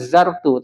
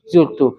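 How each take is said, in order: First: The first vowel is an 'a' sound. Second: The first vowel is an 'u' sound. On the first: The speaker calls it wrong. "bukan zartu" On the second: The speaker calls it right. "tapi zurtu"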